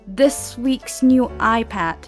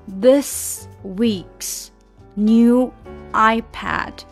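First: It is said faster, words run together. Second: It is said slowly, one word at a time. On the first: "慢慢加快" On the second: "一个字一个字来哈"

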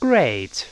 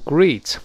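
First: The vowel glides from one sound to another. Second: The vowel is one steady sound. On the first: The speaker calls it right. "双元音a 是先发a 再发e" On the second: The speaker calls it wrong. "注意不要读great"

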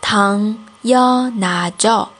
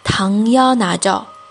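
First: It is said slowly. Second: It is said fast.

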